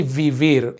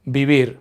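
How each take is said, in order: First: "vivir" with English-style V sounds, teeth on lip; V pronounced as V. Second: "vivir" said as "bibir"; V pronounced as B. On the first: Teacher showing learners the mistake, "vivir" with hard English V sounds. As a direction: say both V's in "vivir" as true V's, not B's. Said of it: "but we don't say vivir". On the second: Teacher modelling Spanish pronunciation for learners, "vivir" with B sounds for the V's. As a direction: make both V's in "vivir" B sounds, lips together. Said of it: "we pronounce V's like B's". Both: Shown as a demonstration.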